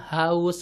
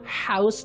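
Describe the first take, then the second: First: The h is a plain, light breathy sound. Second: The h is a harsh sound from mid-throat. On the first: The speaker calls it right. "Kalau H kan biasa ya" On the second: The speaker calls it wrong. "Tapi kalau H kan kita nggak pernah"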